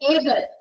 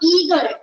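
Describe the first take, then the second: First: The first vowel is an 'ay' sound. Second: The first vowel is a long 'ee' sound. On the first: The speaker calls it right. "It's" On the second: The speaker calls it wrong. "It's not"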